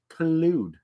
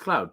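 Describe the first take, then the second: First: The name is said with two syllables. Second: The name is said with one syllable. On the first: It sounds pretentious. "if I say it with a very pretentious word, it says collude" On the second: It is the plain reading. "Or other words, it says cloud"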